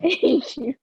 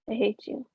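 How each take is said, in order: First: It is said while laughing. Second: It is said flat and emotionless.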